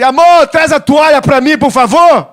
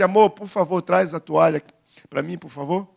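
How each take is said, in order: First: It is said in a harsh, bossy tone. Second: It is said in a gentle, loving tone.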